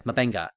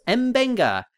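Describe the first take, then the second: First: M'Benga with a short "muh" at the start; muh-Benga pronunciation. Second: M'Benga with a spoken "em" at the start; em-Benga pronunciation. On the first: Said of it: "then it's M'Benga". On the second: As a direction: say M'Benga as "em-BENG-ga". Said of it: "the pronunciation of M'Benga's name". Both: Shown as a demonstration.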